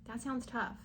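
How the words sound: It is said in a kind, sympathetic tone. The speaker calls it right. "Try to be nice about it"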